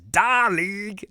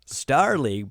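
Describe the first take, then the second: First: The first word sounds like 'da'. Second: The first word is a clear 'star'.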